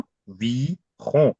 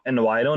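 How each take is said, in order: First: It sounds like avi-hon, with no English sounds. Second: It sounds like the start of English environment. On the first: The speaker calls it right. "उसको प्रोनाउंस करते हैं अवी हों।" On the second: The speaker calls it wrong. "इसको एनवायरो नहीं बोलेंगे आप"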